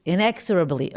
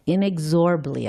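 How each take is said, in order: First: "Inexorably" with the stress on EX; "Inexorably" with a full EX and a light, unstressed "or"; corrected pronunciation. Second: "Inexorably" with the stress on ZOR; "Inexorably" squeezed to stress the third syllable, ZOR; tentative pronunciation. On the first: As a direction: say "Inexorably" as in-EK-ser-ub-lee. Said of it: "the way you pronounce that word". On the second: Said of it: "pronounce it pro". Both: Shown as a demonstration.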